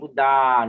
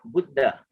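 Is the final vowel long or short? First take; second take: long; short. First: The final vowel is drawn out long. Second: The final vowel is cut short. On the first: The speaker calls it wrong. "but not Buddha, no. That one may be A with the with the with the dash on the top" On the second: The speaker calls it right. "Here is short"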